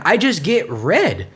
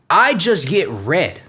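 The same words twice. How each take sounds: First: Said in the usual way. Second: "I" punched, then slowing on "just get red"; stress on I. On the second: Real, not acted. Comparing himself with his darker brother, stress on "I". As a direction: lean on "I" to set yourself apart.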